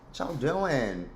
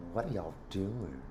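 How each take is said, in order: First: Slow drawled Southern greeting, lightly voiced; Leslie Jordan impression. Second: Leslie Jordan impression. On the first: Greeting her viewers in Leslie Jordan's voice, slow and drawled. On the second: Greeting her viewers again in Leslie Jordan's voice, much softer. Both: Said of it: "In the words of Leslie Jordan".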